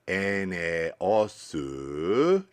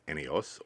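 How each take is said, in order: First: It is said with Japanese sounds and an added vowel. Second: It is said with English sounds and no added vowel. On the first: "when they say Eneosu" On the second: "you might not recognize it as Eneos"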